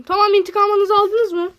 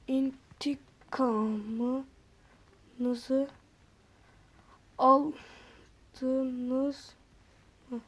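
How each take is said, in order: First: "aldınız" vurgulu, yüksek ve tiz "intikamınızı aldınız mı?"; "intikamınızı aldınız mı?" diye yüksek sesle, heyecanla sor. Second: Çok yavaş ve alçak sesle "İntikamınızı aldınız mı?"; "İntikamınızı" kelimesini uzatarak, kısık ve yavaş sor. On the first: (coşkulu, yüksek sesli soru) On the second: (kısık, ağır ağır soru) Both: Shown as a demonstration. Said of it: "Böyle dedim".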